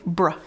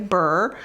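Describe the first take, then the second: First: The b and r join with no vowel. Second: A vowel sound separates the b and r. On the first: The speaker calls it right. "We want to say br" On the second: The speaker calls it wrong. "we don't want to say burr"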